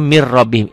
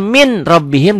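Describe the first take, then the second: First: "mir rabbihim" with n absorbed into doubled r; as read. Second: "min rabbihim" with a clear n; as written. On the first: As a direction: join "mir" to "rabbihim" on a long r, no nasal. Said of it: "dibacanya mir rabbihim". ("mir rabbihim", r ganda tanpa dengung) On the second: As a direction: keep the n of "min" apart from "rabbihim". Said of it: "Tulisannya min rabbihim". ("min rabbihim", bunyi n jelas sesuai tulisan) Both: Shown as a demonstration.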